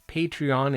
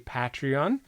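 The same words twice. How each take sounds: First: It is said the way its founder says it. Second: It is said the way many UK speakers say it. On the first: This is how the founder says it. "Patreon is his pronunciation of that" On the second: This is how many people in the UK and Europe say it. "a lot of people in the U K and Europe say Patreon"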